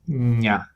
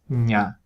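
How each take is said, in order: First: One palatal nasal sound comes before the vowel. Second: One palatal nasal sound comes before the vowel.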